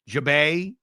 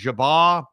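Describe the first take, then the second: First: The name ends with an 'ay' sound. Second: The name ends with an 'ar' sound. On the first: The speaker calls it right. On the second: The speaker calls it wrong.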